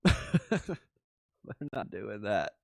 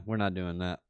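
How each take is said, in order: First: Slow, laughing refusal. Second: Said in the usual way. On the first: Real, not acted. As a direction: chuckle through it, drawn out. Repeats it slowly, laughing.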